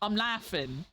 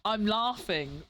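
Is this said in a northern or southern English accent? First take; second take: northern; southern. First: It is said in a northern English accent. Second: It is said in a southern English accent. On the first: "people up north might say" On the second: "I would say laugh"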